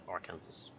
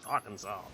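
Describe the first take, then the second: First: The word ends sounding like Kansas. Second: The word does not end sounding like Kansas. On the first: "as I call it, Arkansas, because it's it's Kansas at the end" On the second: "they're like, no, it's Arkansas"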